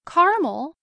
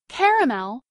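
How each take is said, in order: First: The word is said with two syllables. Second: The word is said with three syllables. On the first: Boiled sugar and water that turns brown. "2 syllables, may mean a mixture of just sugar and water that turns brown when boiled" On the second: A light brown candy. "3 syllables, may mean the light brown candy"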